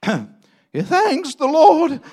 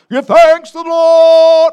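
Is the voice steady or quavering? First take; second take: quavering; steady. First: The voice is shaky and quavering. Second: The voice is steady and confident.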